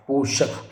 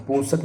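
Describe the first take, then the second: First: पोषक said as "poshak" with a sh sound; correct form. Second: पोषक said as "posak" with a plain s; wrong form. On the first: Teacher gives the correct form, पोषक with a sh sound. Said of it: "ये सही होगा". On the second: Teacher reads the misspelling, पोषक with a plain s. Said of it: "पोषक नहीं". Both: Shown as a demonstration.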